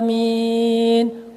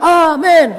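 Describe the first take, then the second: First: It is said slowly and drawn out. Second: It is said quickly and briskly.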